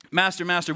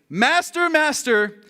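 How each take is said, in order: First: Understated, composed call to the master; mock calm plea. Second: High, acted cry of alarm; panicked cry. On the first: Disciples waking their master in a storm, mock calm plea. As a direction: call him politely, no urgency at all. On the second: Disciples waking their master in a storm, panicked cry.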